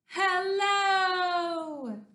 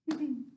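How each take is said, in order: First: It is said very loudly. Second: It is said very quietly.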